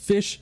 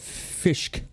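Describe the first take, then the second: First: The word ends with a plain sh sound. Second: The word ends with an added k sound.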